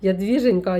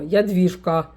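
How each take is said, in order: First: A gently fond call of her name, lightly imitated; tender pet name. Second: A mild mock-strict "Ядвіжка", falling firmly at the end; stern name call. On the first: Grandpa tenderly calling his granddaughter, lightly imitated. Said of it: "до мене по-ласкому". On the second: Grandpa sternly calling his granddaughter, mild imitation. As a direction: imitate grandpa scolding, understated. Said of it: "а як строго".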